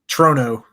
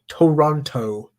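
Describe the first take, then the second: First: The name is shortened with syllables dropped. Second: Every syllable of the name is clearly pronounced. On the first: This is the casual local way. "you can say it a ton of other ways" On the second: The listener is not from the city. "you have to enunciate everything"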